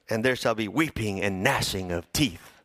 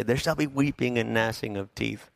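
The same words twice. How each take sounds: First: A touch lower, weighty and ominous; solemn dramatic line. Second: Mock threat to kids. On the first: Shown as a demonstration. Preacher relishing the doom line, lower and weighty. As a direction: let the doom land slowly. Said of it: "I love that line". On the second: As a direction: menace the kids playfully. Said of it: "threatening them with something".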